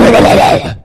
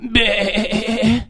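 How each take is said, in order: First: It is a rough, growling, wolf-like bleat. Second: It is a soft, meek, sheep-like bleat. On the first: An aggressive nature shows through its reaction. "Он скажет" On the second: A meek creature reacts to being hurt. "он никогда не скажет"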